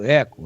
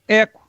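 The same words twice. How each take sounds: First: The word repeats with an echo after it. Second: The word is heard once, dry, without echo. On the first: "quando eu quero, eu falo com eco" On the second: "Agora eu vou falar sem eco"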